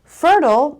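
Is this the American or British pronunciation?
American. It is said with an American accent. "fertile is American"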